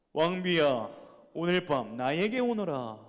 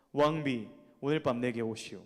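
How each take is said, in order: First: Lightly voiced king calling his queen, a touch louder; a hint of a regal summons; commanding king. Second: A lower, courteous king's invitation; gentle king. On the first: King summons his queen at night, mildly commanding. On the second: Acted. King politely invites his queen, lower and gentle. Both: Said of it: "이렇게 하면 좀 올만하죠, 목소리가?".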